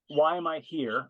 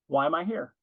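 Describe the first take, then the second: First: It sounds grudging and self-centred. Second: It sounds eager and ready to help.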